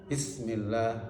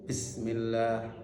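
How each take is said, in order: The two takes are said the same way.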